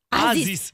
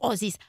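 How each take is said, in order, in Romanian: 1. Folosește forma standard cu 'a'. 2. Folosește forma regională cu 'o'. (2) "accentul ardelenesc"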